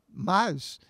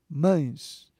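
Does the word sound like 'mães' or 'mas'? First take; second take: mas; mães. First: The word has a plain, oral vowel. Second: The word has a nasal diphthong vowel.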